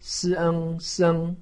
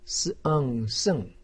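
First: The pitch stays high and level. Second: The pitch falls sharply from high. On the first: "一声" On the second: "四声"

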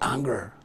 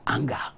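First: The word is said in an American accent. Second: The word is said in an African accent. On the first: "like Americans would say" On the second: "Let me say the African way"

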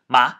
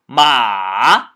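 First: The syllable is cut very short. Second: The syllable is drawn out long. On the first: The speaker calls it wrong. "you say it too short. So it sounds like ma. So that's wrong" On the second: The speaker calls it right. "very long"

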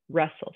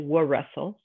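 First: No w sound is heard before the r. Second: A w sound is heard before the r. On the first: The speaker calls it right. "we say wrestle" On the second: The speaker calls it wrong. "we don't say"

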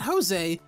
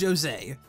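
First: The name does not begin like 'Joe'. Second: The name begins like 'Joe', French sounding. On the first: The speaker calls it wrong. "Not Jose" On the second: The speaker calls it right. "it's Joe, but French sounding"

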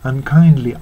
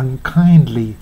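The two takes are said the same way.

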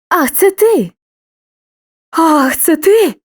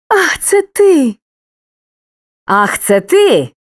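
No difference in how they are said.

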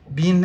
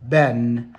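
First: The word is said with a British accent. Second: The word is said with an American accent. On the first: "Been é só na Inglaterra" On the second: "Nos Estados Unidos a pronúncia é been"

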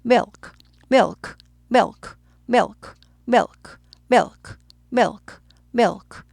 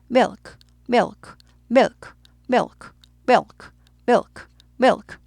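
No difference in how they are said.

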